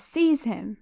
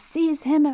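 First: Said in the usual way. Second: High, loud villain command; Voldemort screaming. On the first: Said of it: "Said that wrong". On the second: Acted. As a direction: scream the order like a dark lord. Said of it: "Voldemort screams".

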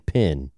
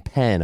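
First: Pin-pen merged vowel in "pin"; "pin" with the vowel of "sit"; Southern PEN as PIN. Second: "pen" unmerged, distinct from "pin"; standard PEN. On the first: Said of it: "I was saying pin". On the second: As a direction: say "pen" with an open E, as in "bed". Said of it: "I wasn't saying pen". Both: Shown as a demonstration.

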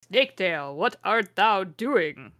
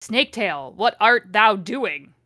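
First: Second try at a stately archaic villain, more contained; Voldemort. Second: Hammed-up archaic villain, slowing on the question; Voldemort. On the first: Acted. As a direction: stretch the question out very slowly. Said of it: "called Voldemort". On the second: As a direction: declaim it with drawn-out, forceful words. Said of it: "the way she writes Voldemort is like this".

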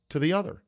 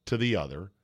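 First: "other" lifted high at the end; rising tune. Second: Said in the usual way. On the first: Shown as a demonstration. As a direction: end "to the other" on a climbing question-like rise.

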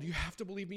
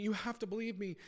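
First: Pleading Riku. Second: Desperate Riku. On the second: Riku pleads with Sora. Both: Acted.

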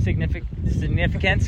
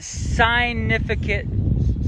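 First: Said in the usual way. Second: Significant drawn out slowly, opening like "sign"; stretched word play. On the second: Shown as a demonstration. Preacher linking Jonah to a sign, stretched word play on "significant". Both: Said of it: "I'm trying to say that. Sign".

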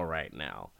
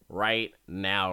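First: Much softer, lower repeat of right now; soft echo. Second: Said in the usual way. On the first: Shown as a demonstration. Recapping the deal starting, trailing off quietly. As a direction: let right now fall away to a murmur.

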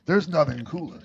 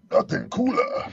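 First: Said in the usual way. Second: Nothing cooler lifted high in pitch; high echo. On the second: Real, not acted. Buddy repeats his line pitched way up.

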